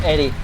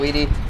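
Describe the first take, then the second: First: The name begins with an 'Ed' sound. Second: The name begins with an 'ee' sound. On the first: "Eddie is also a good pronunciation. You know, like from Ed" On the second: "I'm just more used to saying Edie because of Mass Effect"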